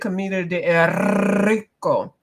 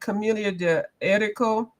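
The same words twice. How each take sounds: First: The R is rolled strongly. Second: The R is said plainly, not rolled. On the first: "I say Camellia de Erico because I am one of those people that can roll my R's" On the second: "I know it's Camellia de Erico"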